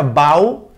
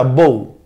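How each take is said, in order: First: Bow rhyming with "cow"; bow as "bau". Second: Bow rhyming with "go"; bow as "boh". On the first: Teacher showing the verb bow for a reverence, rhymed with "cow". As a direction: say "bow" with an ow glide, as in bending. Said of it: "en el primero se pronuncia bow". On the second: Teacher showing the noun bow for a ribbon, rhymed with "go". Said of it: "en el segundo se pronuncia bow". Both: Shown as a demonstration.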